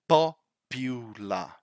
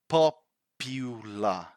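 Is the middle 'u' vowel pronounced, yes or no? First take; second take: yes; yes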